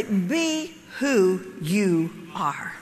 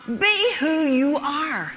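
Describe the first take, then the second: First: Slow, low, word by word; spaced-out words, stepping down in pitch; slow and deliberate. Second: BE pushed up, drawn-out falling ARE; emphatic repeat. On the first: Speaker hands the audience her key line, slow and deliberate. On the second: Speaker repeats her key line to the audience, emphatic. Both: Real, not acted.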